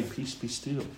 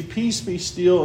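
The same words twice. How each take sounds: First: Very soft, hushed calm command. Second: Slow, measured calm command; Jesus stills the sea with a slow, calm command. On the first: Preacher tells how the Lord calms the storm, very softly. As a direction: breathe it out almost silently. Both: Acted.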